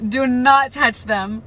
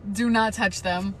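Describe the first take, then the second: First: "Do not touch them" shouted slowly, each word loud; slow loud warning. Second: Said in the usual way. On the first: Real, not acted. Repeated warning, louder.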